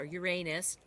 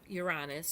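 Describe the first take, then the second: First: The word is said in the joke-sounding way. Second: The word is said in the ordinary way.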